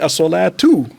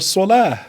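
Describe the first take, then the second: First: A clear t sound is heard in the word. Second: The word ends with a soft h sound. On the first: More words follow it in the sentence. "the T is, is clearly pronounced there" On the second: The word comes at the end of the phrase. "You end it with a H because it's the last sound"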